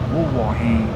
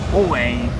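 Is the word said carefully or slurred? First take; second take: careful; slurred. First: The word is said fully with every syllable clear. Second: The word is slurred into a shorter, reduced form. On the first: This is the proper form of the question. "But really it's" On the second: This is a casual everyday way of saying it. "Sometimes the Ghanaians slur it and they say something like"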